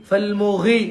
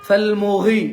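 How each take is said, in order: Both takes have the same delivery.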